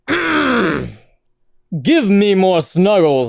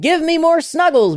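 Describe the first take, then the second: First: It is said in a put-on character voice. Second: It is read in the speaker's normal voice.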